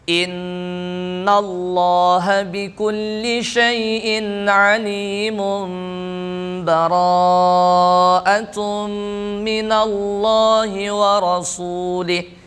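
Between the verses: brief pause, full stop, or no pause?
no pause. It runs straight on with no pause between verses. "wasal. Langsung membaca"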